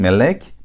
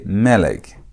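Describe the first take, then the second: First: The stress is on the last syllable. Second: The stress is on the first syllable. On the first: The speaker calls it wrong. "You don't emphasize the last part of the word" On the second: The speaker calls it right. "You emphasize the first part of the word"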